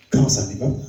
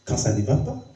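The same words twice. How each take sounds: The two takes are said the same way.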